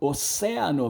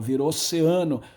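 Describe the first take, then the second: First: The stress is on the second syllable. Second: The stress is on the third syllable. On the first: This is the older Latin form. "Oceano era oceano" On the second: This is the later changed form. "a sílaba tônica foi deslocada para frente"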